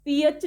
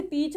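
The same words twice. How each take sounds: First: "पी एच" wrongly split into two sounds, pee-ach; wrong split reading. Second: "पीच" as one long-ee syllable, A silent; correct silent-A reading. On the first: Teacher showing students the wrong reading, wrong split reading. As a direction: say "पी एच" as two syllables instead of one. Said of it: "नहीं पढ़ते". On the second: Teacher showing students the right reading, correct silent-A reading. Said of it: "इसे पीच पढ़ा जाता है". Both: Shown as a demonstration.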